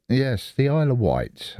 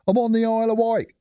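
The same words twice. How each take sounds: First: Said in the usual way. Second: Higher and fast, Isle of Wight blurted out brightly; excited reveal. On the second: Real, not acted. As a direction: announce it like a surprise. Reveals where he lives.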